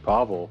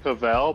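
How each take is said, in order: First: The name is said the American English way. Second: The name is said the French way. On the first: This is how people said it in California. "everybody informed me that my name is actually Pavel" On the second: This is how people say it in French Canada. "I've been telling everybody Pavel because I live in French Canada"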